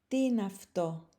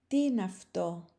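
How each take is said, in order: The two takes are said the same way.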